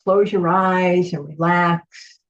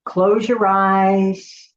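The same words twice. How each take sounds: First: Unvoiced whisper, close your eyes and relax; soft spa whisper. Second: Slow, drawn-out close your eyes; slow instruction. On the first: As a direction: whisper it gently to relax them. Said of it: "repeated instruction now whispered". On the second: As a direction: say it slowly and calmly. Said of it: "guided instruction to close eyes". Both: Shown as a demonstration.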